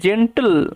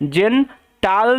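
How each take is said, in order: First: The last syllable sounds like 'til'. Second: The last syllable sounds like 'tal'. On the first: The speaker calls it right. "টিল টিল টিল এরকম ভাবে হয়" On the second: The speaker calls it wrong. "জেন টাল নয়"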